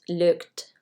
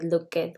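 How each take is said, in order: First: The ending adds no extra syllable. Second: The ending adds an extra vowel syllable. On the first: The speaker calls it right. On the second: The speaker calls it wrong.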